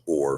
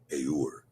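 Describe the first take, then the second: First: The vowel sounds like o. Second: The vowel sounds closer to u. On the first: This is the form used today. The speaker calls it wrong. "the word that we pronounce or for light" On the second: This is the older, ancient form of the word. The speaker calls it right. "a more appropriate pronunciation for the word"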